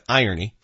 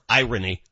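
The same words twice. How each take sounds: First: The R sound is light and soft. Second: The R sound is strong and heavy. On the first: The speaker calls it right. "I call it irony" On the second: The speaker calls it wrong. "You're really hitting that R hard"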